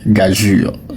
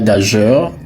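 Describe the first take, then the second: First: It ends with a soft 'jur' sound. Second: It ends with a soft 'jeur' sound. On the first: The speaker calls it right. "il se prononce gageure" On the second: The speaker calls it wrong. "Ce n'est pas gageur"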